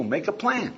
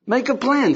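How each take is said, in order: First: Said in the usual way. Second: "Make a plan" said high and loud, hitting "a"; emphatic repeat. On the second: Shown as a demonstration. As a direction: press the point home, high and loud. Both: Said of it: "better still is number six".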